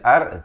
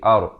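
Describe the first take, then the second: First: The r is light and thin. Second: The r is heavy and thick. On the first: The speaker calls it wrong. "baca ar" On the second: The speaker calls it right. "ra di sini dibacakan dengan tebal"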